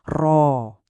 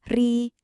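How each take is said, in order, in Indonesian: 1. Bunyi r-nya berat dan dalam, mulut berongga. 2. Bunyi r-nya tipis dan ringan, lidah datar. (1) "Waktu diucapkan tebal atau tafhim" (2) "pas diucapin tipis atau tarkik"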